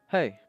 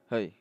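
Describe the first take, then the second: First: It is said in a normal voice. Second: It is said in a deep voice.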